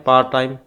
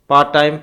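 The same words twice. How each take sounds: No difference in how they are said.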